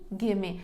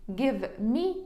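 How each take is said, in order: First: The two words merge into one reduced word. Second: Both words are said in full.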